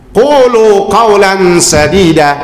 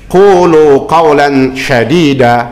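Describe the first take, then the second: First: The last word begins with an s sound. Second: The last word begins with an sh sound. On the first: Speak words that are right and good. The speaker calls it right. "kan yang benar tuh pakai sin kecil" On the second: Speak harsh words. The speaker calls it wrong. "kalau sinnya diganti shin"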